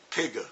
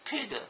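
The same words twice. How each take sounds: First: Imitating the teacher's "Pigga" at ordinary pitch; "Pigga" in two syllables, hard g; teacher's mispronunciation. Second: Put-on high-pitched child echo; mock kindergartners repeating in a high pitch; imitating little kids. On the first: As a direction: model "Pigga" like a teacher, extra "uh" after the g. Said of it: "so she goes". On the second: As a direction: parrot the teacher in a high little kid's voice. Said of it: "Ten little faces on the floor go".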